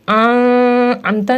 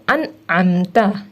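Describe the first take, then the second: First: The n sound is hidden, not clearly pronounced. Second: The n sound is pronounced clearly and distinctly. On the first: The speaker calls it wrong. "हम इसको आमता नहीं पढ़ेंगे" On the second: The speaker calls it right. "जाहिर करके पढ़ेंगे"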